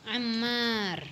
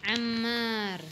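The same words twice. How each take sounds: Both takes have the same delivery.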